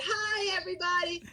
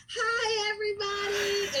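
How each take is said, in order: First: Cheery class greeting. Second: Put-on high, singsong hi to children; cheery class greeting. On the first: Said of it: "I would have said". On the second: Teacher greets her young class online, high and cheery. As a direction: greet the little ones brightly. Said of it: "my hi is". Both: Shown as a demonstration.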